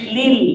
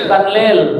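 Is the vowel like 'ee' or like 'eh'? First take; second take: ee; eh. First: The vowel sounds like 'ee'. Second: The vowel sounds like 'eh'. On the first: The speaker calls it right. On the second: The speaker calls it wrong.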